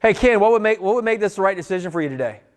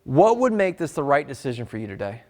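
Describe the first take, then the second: First: Pushy rushed version. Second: Calm conversational question. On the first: The wrong way to ask Ken, rushed and pushy. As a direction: rattle it off too eagerly. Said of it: "I can't go". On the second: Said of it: "Here's what you say". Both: Shown as a demonstration.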